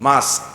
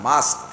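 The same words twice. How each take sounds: Both takes have the same delivery.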